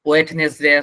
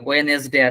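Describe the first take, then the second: First: Three syllables with a 't' sound in the middle. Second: Three syllables with no 't' sound in the middle. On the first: "এটা একটাও না" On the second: "but ওইটা না"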